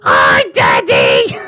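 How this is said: It is said in a put-on Legbeard voice.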